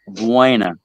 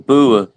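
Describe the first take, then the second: First: It is said the American way, as full buena. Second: It is said the British way, clipped to bua. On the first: "we would call that "buena."" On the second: "when he says "bua," ... that's how they say it over there"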